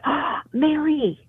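It sounds lively and excited, with energy. Something good and new is coming. "It's like there's some energy there. So it's not a negative energy"

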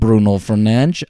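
It is said with a Portuguese accent.

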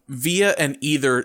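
The words are said with an American pronunciation. "sound like American bastardizations"

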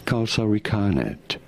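It is said with an English-style pronunciation.

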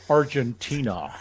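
It is said with an American accent.

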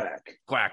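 The word sounds cheerful and warm. The speaker is praising the child. "if it's like a good quack, job, like quack ... quack with a smile"

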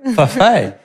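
It is said with flamboyant Italian-style flair.

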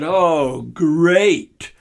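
It sounds annoyed and sarcastic.

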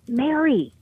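The voice sounds excited and full of energy. The speaker has something new and good. The speaker calls it right. "what I'm signaling is, oh, I've got something new"

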